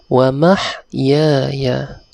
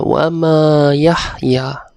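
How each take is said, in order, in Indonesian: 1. Frasa ini disambung menjadi mahyaya. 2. Frasa ini dipisah menjadi ma yahya. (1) "bacaan yang betul ialah wa mahyaya. Saya ulang" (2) "itu bacaan yang salah"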